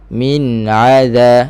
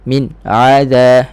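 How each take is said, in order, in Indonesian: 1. Huruf n mengalir dengan dengung sengau yang singkat. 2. Suara terputus secara tiba-tiba setelah huruf n. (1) "satu harakat" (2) "dia menyekat-nyekat suara"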